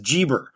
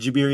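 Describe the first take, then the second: First: The first vowel sounds like 'ee'. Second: The first vowel sounds like 'ah'. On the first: The speaker calls it wrong. "Europeans mangle everyone's name" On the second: The speaker calls it right. "saying Abu Musa Jabir ibn Hayyan correctly"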